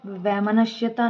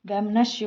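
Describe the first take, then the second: First: वैमनस्यता said with the ta suffix; wrong form. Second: वैमनस्य with no "-ta" at the end; वैमनस्य said as vaimanasya; correct form. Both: Shown as a demonstration. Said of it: "वैमनस्य होता है".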